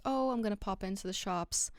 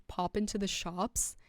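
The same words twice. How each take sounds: First: Said in the usual way. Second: Slow, put-on British accent on "Pop into the shops?". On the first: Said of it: "why did that sound, like, so British?". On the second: Echoing her roommate's British phrase in a mock British accent. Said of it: "I did a British accent".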